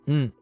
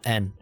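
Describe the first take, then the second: First: It is a bare nasal hum with no vowel. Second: It is said like the English letter name. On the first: The speaker calls it right. "this is n" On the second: The speaker calls it wrong. "not n"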